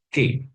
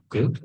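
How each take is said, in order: First: The vowel after k is a clear e. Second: The vowel after k is a weak schwa. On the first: The speaker calls it right. "Cara bacanya K" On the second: The speaker calls it wrong. "bukan ke"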